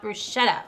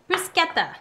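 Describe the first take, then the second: First: The word has a non-Italian pronunciation. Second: The word has the Italian pronunciation. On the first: The speaker calls it wrong. "not bruschetta" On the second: The speaker calls it right. "the Italian pronunciation"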